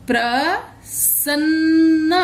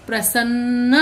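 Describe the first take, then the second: First: प्रसन्न very slow, higher, with the double न held; प्रसन्न stretched with a long न्न; slow careful reading. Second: Said in the usual way. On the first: Shown as a demonstration. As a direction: sound out प्रसन्न slowly. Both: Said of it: "तो चलिए, इनको पढ़ते हैं।".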